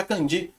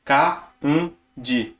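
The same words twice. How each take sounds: First: Kanji said the Brazilian way, with a nasal "kan" like "kãdji"; the common Brazilian mispronunciation of kanji, nasal first syllable; Brazilian-style kanji. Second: Kanji with an open, un-nasal "ka", close to "kaudji"; correct Japanese kanji. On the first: Teaching viewers Japanese, showing the wrong Brazilian way to say kanji. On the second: Teaching viewers Japanese, modelling the right way to say Kanji. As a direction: Kanji said carefully the Japanese way, slow and falling. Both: Shown as a demonstration. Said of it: "Na verdade, a pronúncia é kanji".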